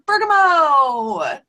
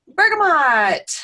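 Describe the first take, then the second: First: "bergamot" ending in a long "-mo", no T; silent final T. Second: "bergamot" with a clearly sounded T at the end; final T pronounced. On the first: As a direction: say "bergamot" the French way, as "berga-MOH", drawn out and loud. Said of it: "depending on your language". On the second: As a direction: say "bergamot" ending in "-mot", T audible, slow and loud. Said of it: "However you choose to pronounce it". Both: Shown as a demonstration.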